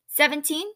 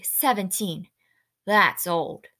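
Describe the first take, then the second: First: High, rising question; incredulous rising echo. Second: Falling, mildly hopeless tone; understated disappointment. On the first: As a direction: echo it as a raised, louder query. Girl questions his stated age. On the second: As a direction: let it sink with a touch of dismay. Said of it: "Winnie hopelessly". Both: A narrator's reading.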